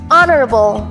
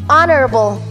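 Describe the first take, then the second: The two takes are said the same way.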